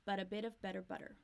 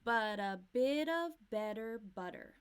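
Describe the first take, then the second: First: But a bit of better butter said fast, flaps linked; fast flap T run. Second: Bit of better butter, slow and louder, flap Ts; slow flap T demo. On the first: Teacher repeats but a bit of better butter at speed. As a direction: rattle it off quickly. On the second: Teacher slowly models but a bit of better butter. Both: Shown as a demonstration. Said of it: "a lot of flap T".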